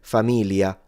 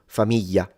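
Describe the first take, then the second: First: The middle sound is an L sound. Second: The middle sound is a Y sound. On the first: This is how some people say it in the north. "in the north, there are some people sometimes that simplify it into an L" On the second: This is how it is said in the south. "in the south, this is simplified into a Y"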